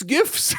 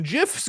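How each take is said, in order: First: "gifs" with a hard G, high and questioning. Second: "gifs" with a J sound at the start; soft G gifs. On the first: Departing man quizzing her, "gifs" with a hard G. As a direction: say "gifs" with the G of "gift", pitched up. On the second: Departing man quizzing her, "gifs" with a soft G. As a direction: say "gifs" as "jiffs", questioning. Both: Acted. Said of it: "Do you call 'em".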